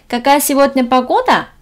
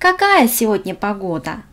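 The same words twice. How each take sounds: First: The voice rises at the end, Korean style. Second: The voice falls at the end.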